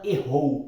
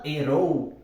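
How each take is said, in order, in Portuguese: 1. O r é um som de h aspirado. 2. O r é uma leve batida da língua. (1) "o Faustão não fala errou" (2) "ele fala errou"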